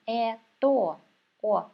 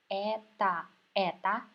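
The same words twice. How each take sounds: First: Э, то, о said with a full clear O in each syllable; careful wrong reading, every O sounded; spelled-out wrong reading. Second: Это with its last vowel reduced to a short "a"; correct Russian vowel. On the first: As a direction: read "это" letter by letter with a clear O. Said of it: "But we never say like that". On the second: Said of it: "so we pronounce it as а". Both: Shown as a demonstration.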